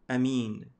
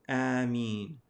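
First: The first vowel is kept short. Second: The first vowel is drawn out long. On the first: "The second opinion is with the aleph being short" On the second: "the purest linguistically is to say Ameen with elongation and lightening of the meme"

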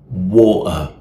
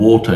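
First: The T is replaced by a catch in the throat. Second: The T is released as a clear T sound. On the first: "you say water, water" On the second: "instead of saying water"

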